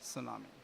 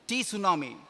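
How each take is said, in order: First: The word begins with an S sound. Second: The word begins with a sounded T. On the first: The speaker calls it right. "T is silent. It should be pronounced as tsunami" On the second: The speaker calls it wrong. "people did not know how to pronounce the word"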